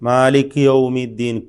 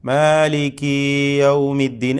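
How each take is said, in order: First: The final ki vowel is dropped entirely. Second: The final ki vowel is stretched into kee. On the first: "കാഫിന് സുക്കൂന് കൊടുത്തിട്ട് പെട്ടെന്ന് അങ്ങനെ പറയുക" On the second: "ഒരു യായ് കൂട്ടിക്കൊണ്ട്"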